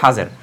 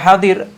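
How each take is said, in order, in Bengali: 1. মাঝের ব্যঞ্জনটি 'z'-এর মতো। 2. মাঝের ব্যঞ্জনটি 'd'-এর মতো। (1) "দোয়াতের উচ্চারণটা কেউ জ উচ্চারণ করে তখন তারা হাজের বলে" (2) "মূলত শব্দ রয়েছে দোয়াত দিয়ে হাদির"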